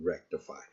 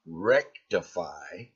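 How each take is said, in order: First: Said in the usual way. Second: Mocking quote. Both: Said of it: "there's that word again".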